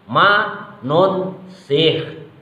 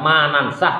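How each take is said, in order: First: The vowel after the first n is u. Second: The vowel after the first n is a. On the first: This is the reading of another recitation tradition. "bidhammin nuni, dengan dibaca dhammah nunnya" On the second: This is the common reading followed locally. "bukan manansah"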